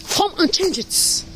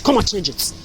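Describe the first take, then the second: First: Higher, slow, sing-song dare; slow mocking dare, pitched up; mocking taunt. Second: Said in the usual way. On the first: Real, not acted. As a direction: draw it out to goad them. Angry rant, repeated taunt.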